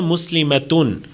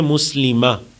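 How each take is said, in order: First: The word ends with a full '-atun' ending. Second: The word ends with a short '-a' sound. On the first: This is the complete form of the word. "ये पूरा लफ्ज़ होगा" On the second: This is how it is read when pausing. "अरबी एक्सेंट के मुताबिक हम इसको क्या पढ़ते हैं"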